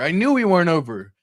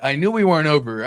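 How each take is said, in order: First: Higher and louder, hitting knew; rising excitement. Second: Louder, leaning on we; excited investor. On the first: Investor repeating himself, higher and louder on knew. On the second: Investor watching the pump, leaning on we. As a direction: lean on we, louder and pleased. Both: Retold or imitated. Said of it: "You're like".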